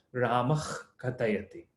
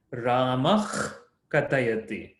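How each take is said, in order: First: "Ramah katayati" quick, visarga barely heard; faster, lighter. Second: "Ramah katayati" with a rising, held "Ramah"; emphasized sound. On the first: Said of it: "When you're saying speaking faster". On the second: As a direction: lean on "Ramah" before "katayati". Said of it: "I'm emphasizing it a little bit more". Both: Shown as a demonstration.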